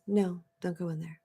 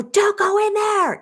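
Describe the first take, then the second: First: Much softer, neutral and even; the calm inner voice, softly; calm quiet warning. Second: Much higher, slow and drawn out; a hammed-up high alarm voice; mock high warning. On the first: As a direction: say it quietly, without alarm. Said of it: "It was calm, it was quiet". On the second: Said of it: "And it didn't go". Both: Shown as a demonstration.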